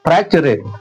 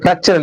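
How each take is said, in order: First: The word ends with an extra vowel sound. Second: The word ends without an extra vowel sound. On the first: The speaker calls it wrong. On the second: The speaker calls it right.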